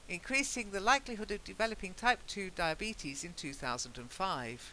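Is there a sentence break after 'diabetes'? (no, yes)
no. It runs straight on from 'diabetes' without a break. The year wrongly attaches to the previous sentence. The speaker calls it wrong. "Because if you don't"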